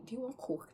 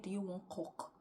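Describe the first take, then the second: First: "coke" with a long o, as in cocaine; coke as intended. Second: "coke" with a short, open vowel, like "cock"; coke as misheard. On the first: Man offering the speaker drugs, "coke" with a long o. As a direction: say "coke" clearly with an o as in "go". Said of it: "That's what he said". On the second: The speaker replays what they misheard, "coke" sounding like "cock". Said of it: "in my head, I heard". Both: Retold or imitated.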